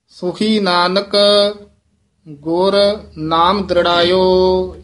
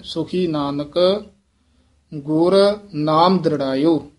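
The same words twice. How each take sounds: First: Said in the usual way. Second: ਸੁਖੀ Nanak, then ਗੁਰ with a small catch before ਨਾਮ ਦ੍ਰਿੜਾਇਓ; slight halt at ਗੁਰ. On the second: Shown as a demonstration. Teacher models the halt at ਗੁਰ for the student. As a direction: linger briefly on ਗੁਰ. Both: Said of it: "ਇਹ ਗੁਰ ਇੱਥੇ ਯਮਕ ਲਾ ਦੇਣੀ ਹੈ".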